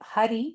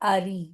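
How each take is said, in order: First: The word begins with an audible h sound. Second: The word begins with a vowel, no h. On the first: The speaker calls it wrong. "they will not say it Hari" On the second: The speaker calls it right. "they will say it Ari"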